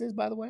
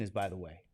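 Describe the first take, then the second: First: Voice squeaks. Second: Low real voice. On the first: Teacher quizzing students, voice squeaking up high. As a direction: voice cracks up high on the tag question. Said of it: "God, there's a squeak". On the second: Teacher repeating the question, now low and soft. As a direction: drop well lower and softer. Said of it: "I wanna talk in my real voice". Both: Real, not acted.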